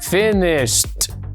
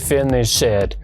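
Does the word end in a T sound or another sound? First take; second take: T sound; another sound. First: The ending sounds like a T. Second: The ending does not sound like a T. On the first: The speaker calls it right. "como una T" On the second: The speaker calls it wrong. "no se dice"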